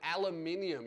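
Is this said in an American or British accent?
British. It is said with a British pronunciation. The speaker calls it right. "the word aluminium"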